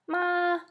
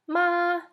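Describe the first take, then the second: The two takes are said the same way.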